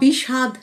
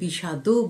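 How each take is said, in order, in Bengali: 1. শব্দটি শুধু একটি শেষ ব্যঞ্জন দিয়ে শেষ হয়। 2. শব্দটি শেষে একটি স্বরধ্বনি যোগ করে শেষ হয়। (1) "বিষাদ নয়" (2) "এখানে বিষাদও বলতে হবে"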